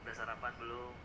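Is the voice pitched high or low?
low. It is spoken at a low pitch. The speaker calls it right. "nada yang rendah"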